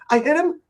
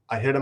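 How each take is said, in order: First: It is said as a panicked, worried question. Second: It is said as a calm, flat statement. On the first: She was asking whether she had hit someone. The speaker calls it right. "frantic and hyperventilating and freaking out and asking" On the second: She was admitting that she had hit someone. The speaker calls it wrong. "It was not like this"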